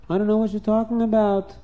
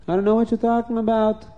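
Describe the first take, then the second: First: Higher, wide-eyed denial; innocent denial. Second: Higher and insistent; insistent denial. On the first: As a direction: play innocent, pitched up. Yankel denies the theft. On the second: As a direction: repeat the denial more firmly. Yankel repeats the denial. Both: Acted.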